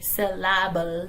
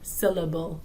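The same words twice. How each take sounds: First: Every vowel sound is pronounced fully. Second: The unstressed vowels are reduced and weak. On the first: The speaker calls it wrong. "We don't say syllable" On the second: The speaker calls it right. "We say syllable"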